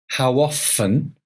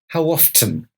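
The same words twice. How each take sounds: First: The T in often is silent. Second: The T in often is clearly pronounced. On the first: "You can say often" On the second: "or you can hear the T"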